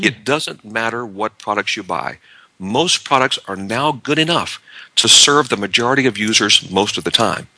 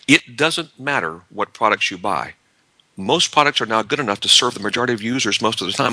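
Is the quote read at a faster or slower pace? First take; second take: slower; faster. First: It is read at a slower pace. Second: It is read at a faster pace.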